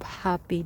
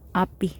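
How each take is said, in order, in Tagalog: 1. May tunog na h ang simula ng salita. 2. Walang tunog na h ang simula ng salita. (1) "instead of happy" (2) "hindi nila ma-pronounce yung H"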